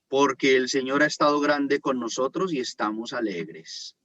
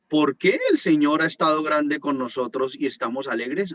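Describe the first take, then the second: First: It is read as a statement. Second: It is read as a question.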